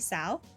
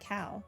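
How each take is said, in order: First: The word begins with a soft S sound. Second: The word begins with a hard K sound. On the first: The speaker calls it right. "It's supposed to be sow?" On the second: The speaker calls it wrong. "I thought they pronounced it cow"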